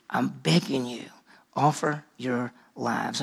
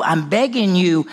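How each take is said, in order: First: Softer, lower, slow begging; hushed plea. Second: Urgent plea. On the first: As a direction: plead almost under the breath. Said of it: "Paul's saying". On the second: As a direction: press hard on begging. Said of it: "He said". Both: Retold or imitated.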